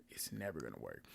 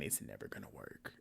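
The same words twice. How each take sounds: First: Hushed repeat with a touch of voice; whisper. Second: Whispered warning, almost no voice. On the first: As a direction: say it again under your breath. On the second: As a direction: breathe it like a secret. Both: Real, not acted. Repeating her rule in a hush.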